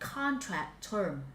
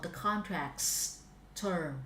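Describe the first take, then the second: First: There is no s sound after contract. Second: There is an s sound after contract. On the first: The speaker calls it wrong. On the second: The speaker calls it right. "Sở hữu các phải s đâu"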